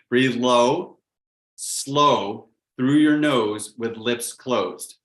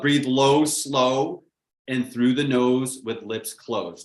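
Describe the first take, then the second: First: It is said slowly. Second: It is said at a normal pace.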